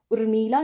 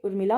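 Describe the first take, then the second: First: उर्मिला with long ee; wrong pronunciation. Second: उर्मिला with short i; correct pronunciation. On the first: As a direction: say उर्मिला as ur-mee-la. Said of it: "उर्मिला ना होके". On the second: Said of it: "उर्मिला होता है". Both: Shown as a demonstration.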